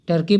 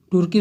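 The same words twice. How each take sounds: First: टर्की said with an "er" vowel, "TER-kee"; English pronunciation. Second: तुर्की said with an "oor" vowel, "TOOR-kee"; variant pronunciation. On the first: Teacher shows students the English reading, टर्की pronounced "ter-kee". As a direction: say टर्की with a neutral unrounded first vowel. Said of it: "तो इसका शुद्ध उच्चारण". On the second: Teacher shows students the other reading, तुर्की pronounced "toor-kee". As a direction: say तुर्की with a rounded u. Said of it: "तुर्की भी बोलते हैं". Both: Shown as a demonstration.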